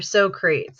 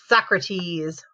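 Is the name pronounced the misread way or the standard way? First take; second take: misread; standard. First: The name is pronounced as misread from spelling. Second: The name is pronounced the standard way.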